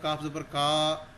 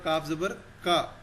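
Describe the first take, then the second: First: The final vowel is drawn out long. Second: The final vowel is kept short. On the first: The speaker calls it wrong. "उसको हम लंबा कर देते हैं" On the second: The speaker calls it right. "नहीं, ये होगा"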